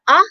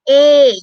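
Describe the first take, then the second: First: It is the short vowel, sounding like ah. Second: It is the long vowel, sounding like ay. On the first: "your short vowel sound" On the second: "your long vowel sound"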